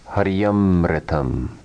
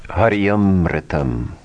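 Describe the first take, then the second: First: The two words are merged into one. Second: The two words are merged into one.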